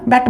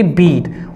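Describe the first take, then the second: First: बैट with a short e as in bet, not बीट. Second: Said in the usual way. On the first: Shown as a demonstration. Teacher shows the past form बैट to the class, vowel like bet. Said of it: "लेकिन हम बैट बोलते हैं". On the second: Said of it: "यहाँ पे spelling same होते हैं".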